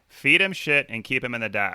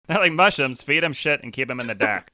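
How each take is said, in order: First: Put-on second try at a Boston accent. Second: Bad Boston accent, hammed up; imitating a Boston accent, clumsy. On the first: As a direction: lighter Boston accent, retried. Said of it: "One more time". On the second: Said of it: "That's, that's your Boston accent".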